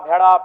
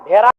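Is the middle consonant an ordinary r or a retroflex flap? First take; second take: retroflex flap; ordinary r. First: The middle consonant is a retroflex flap. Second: The middle consonant is an ordinary r. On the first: This is the native Kurmali pronunciation. "अड़ का महत्वपूर्ण स्थान है" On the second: This is how outsiders would pronounce it. "वो कारा कहेंगे, भेरा"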